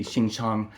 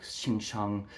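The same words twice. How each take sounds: First: Said in the usual way. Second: "Xing Shang" muttered softly under the breath; softly imitated slur "Xing Shang"; retold whisper. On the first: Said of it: "freaking squinty". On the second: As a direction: drop to a hushed aside on "Xing Shang". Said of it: "he whispered in his, his mouth".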